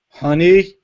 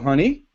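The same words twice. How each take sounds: First: It sounds annoyed and displeased. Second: It sounds relaxed and ordinary.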